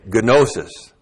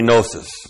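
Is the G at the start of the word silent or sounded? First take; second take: sounded; silent. First: The initial G is pronounced. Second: The initial G is silent. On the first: The speaker calls it right. "He would say gnosis because there are no silent letters" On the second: The speaker calls it wrong. "a good Greek would never say gnosis"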